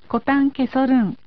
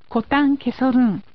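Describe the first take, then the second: No difference in how they are said.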